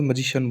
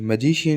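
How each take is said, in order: First: The word has an English-style pronunciation. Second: The word has an Indian-style pronunciation. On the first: The speaker calls it right. "लेकिन अपने को पता होना चाहिए मजिशियन बोलते हैं" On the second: The speaker calls it wrong. "मजिशियन ही जचता है अपने मुंह से तो"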